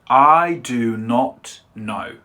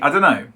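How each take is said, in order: First: 'Do not' is said as two full words. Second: 'Do not' is contracted to one short syllable. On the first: The speaker calls it wrong. "in a textbook, you might see" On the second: The speaker calls it right. "We would say"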